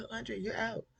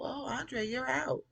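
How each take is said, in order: First: High, mocking singsong with a laugh; smug dismissal repeated. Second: High, smirking singsong; smug dismissal. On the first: Host mocking Gideon's smug line, high and laughing. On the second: Retold or imitated. Gideon smugly firing Andre, high and smirking. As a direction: sneer it sweetly, pitched high. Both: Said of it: "Punk ass smiling".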